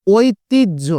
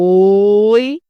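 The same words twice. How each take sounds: First: Said in the usual way. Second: ঐতিহ্য said with the ঐ opened into ও plus a short ই, ending on a rise; teacher showing how ঐতিহ্য is really pronounced, ঐ as ও and short ই; ঐতিহ্য demonstrated, its ঐ sounded as ও-ই with a short ই; pronunciation demo. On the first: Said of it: "যেমন আমরা যদি বলি". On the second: Shown as a demonstration. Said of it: "convert করে নিয়ে আসলাম কিন্তু ও এবং হ্রস্ব ই করে".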